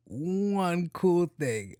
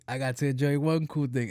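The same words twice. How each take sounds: First: ONE COOL THING stretched very slowly, pitched up; drawn-out emphasis. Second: Said in the usual way. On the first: Real, not acted. Dragged-out emphasis, then repeated normally.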